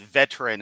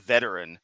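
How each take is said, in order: First: "veteran" squeezed into two syllables, VET-tran; mimicked mispronunciation. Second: "veteran" in three syllables, VET-er-an; correct pronunciation. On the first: Commentator quoting the preacher's slip, "veteran" as VET-tran. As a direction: say "veteran" as VET-tran, dropping the middle vowel. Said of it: "he said veteran instead of veteran". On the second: Shown as a demonstration. Commentator giving the proper word, "veteran" as VET-er-an. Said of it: "instead of veteran".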